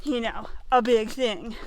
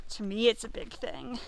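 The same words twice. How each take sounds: First: Said in the usual way. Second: "me" stressed, whole line softer. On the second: Shown as a demonstration. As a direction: lean on "me", quietly.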